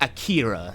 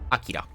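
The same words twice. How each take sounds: First: The name is said with British English pronunciation. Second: The name is said with Japanese-style pronunciation. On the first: "I'm tapping into the, the British voice" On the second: "the correct way to put correct, my Japanese is terrible"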